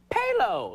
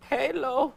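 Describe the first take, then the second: First: High, cheerful name announcement; happy and excited. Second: High, forlorn questioning name; despairing. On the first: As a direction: announce yourself happily, imitating an eager caller. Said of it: "he sounded really happy and excited". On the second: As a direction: imitate a caller losing hope. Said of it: "he got more despairing". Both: Retold or imitated.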